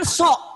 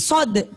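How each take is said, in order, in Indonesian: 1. Kata ini berakhir dengan bunyi k. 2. Kata ini berakhir dengan bunyi d. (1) "jangan sok" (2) "tapi sod"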